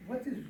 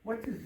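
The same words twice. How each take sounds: The two takes are said the same way.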